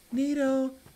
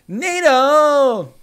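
First: The name is said more quietly. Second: The name is said louder.

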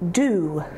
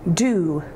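First: The syllable begins with a D sound. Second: The same.

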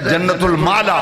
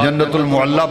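First: The second word sounds like maa-la. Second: The second word sounds like mu-al-la. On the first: The speaker calls it right. "सही तलफ्फुज है जन्नतुल माला" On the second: The speaker calls it wrong. "बाज़ लोग जन्नतुल मुअल्ला पढ़ते हैं, ये लफ्ज गलत है"

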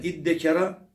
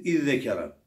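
First: The doubled consonant is a 'd' sound. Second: The doubled consonant is a 'dh' sound. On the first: "Zeli dala kalbetmede var. Dalı da dala idgam etmede var" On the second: "Dalı zele kalbettik. Zeli zele idgam ettik"

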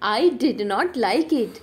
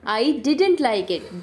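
First: Did and not are said as two separate words. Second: Did and not are merged into one contracted word. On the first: The speaker calls it wrong. "डिड नॉट को बार बार आप डिड नॉट नहीं पढ़ते हैं" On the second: The speaker calls it right. "आप कहेंगे डिडेंट"

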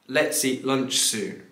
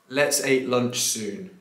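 First: The word 'eat' has the long 'ee' vowel. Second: The word 'eat' lacks the long 'ee' vowel. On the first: The speaker calls it right. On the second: The speaker calls it wrong.

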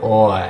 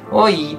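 First: It sounds gruff, like calling someone rudely. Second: It sounds light and friendly, drawn out. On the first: It is a rough way to call someone. The speaker calls it wrong. "日本で使われてる、おい、お前、みたいな感じじゃなくて" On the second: It is a casual friendly hello. The speaker calls it right. "おいーって感じになるので"

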